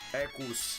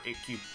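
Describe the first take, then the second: First: The name ends with an audible s sound. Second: The name ends without any s sound. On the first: The speaker calls it wrong. "It would be Ekus, but it doesn't sound right" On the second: The speaker calls it right. "So I'm gonna go for Eku"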